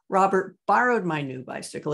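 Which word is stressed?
borrowed. The word 'borrowed' is stressed. He borrowed it rather than stole it. "He didn't steal it"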